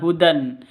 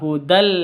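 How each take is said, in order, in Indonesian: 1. Kata ini berakhir dengan bunyi n. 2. Kata ini berakhir dengan bunyi l. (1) "Bukan hudan" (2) "Hudal seperti itu"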